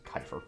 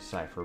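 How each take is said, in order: First: The word begins with a K sound. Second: The word begins with an S sound. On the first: The speaker calls it wrong. "will pronounce this shit as Kiefer" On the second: The speaker calls it right. "it is actually Cipher"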